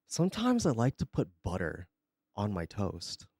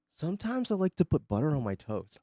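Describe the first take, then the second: First: Mock shy confession. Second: Said in the usual way.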